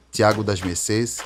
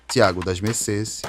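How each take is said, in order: Both takes have the same delivery.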